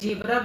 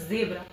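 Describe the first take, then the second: First: The word begins with a j sound. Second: The word begins with a z sound. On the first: The speaker calls it wrong. "हम लोग जेब्रा बोलते हैं, वो जेब्रा नहीं है" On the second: The speaker calls it right. "सा जेब्रा"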